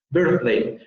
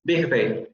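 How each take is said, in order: First: Birthday with a th sound; standard birthday. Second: Big day for birthday. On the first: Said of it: "dirían big day". (birthday con th interdental) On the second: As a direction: turn the th of birthday into a g. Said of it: "ahí dirían big day". (birthday dicho como big day) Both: Shown as a demonstration.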